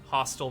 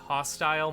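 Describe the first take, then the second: First: It is said with an American pronunciation. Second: It is said with a Canadian pronunciation. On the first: "whereas in American dialect it's" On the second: "the Canadian way of pronouncing"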